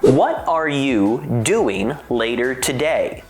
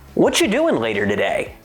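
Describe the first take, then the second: First: Each word of 'what are you' is said separately. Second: 'What are you' runs together as 'whatcha'.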